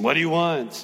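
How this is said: The question sounds irritated and dismissive. The asker wants to be left alone. The speaker calls it wrong. "like a parent who's been tired of their kid chasing"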